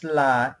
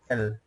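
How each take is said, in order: First: La said as "lah"; Quechua L. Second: L said as "el"; English L. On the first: Teacher showing the Quechua alphabet, la said as "lah". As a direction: say la with an open "ah" after the L. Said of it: "You pronounce la in Quechua". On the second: Teacher contrasting with English, L said as "el". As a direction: say L as the English letter name, "el". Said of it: "In English, you pronounce". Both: Shown as a demonstration.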